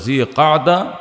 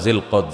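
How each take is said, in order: First: It is said the longer Arabic way. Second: It is said the short Bengali way. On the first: "আরবে তুলে জিলকাদা" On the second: "এমনি বাংলা জিলকদ"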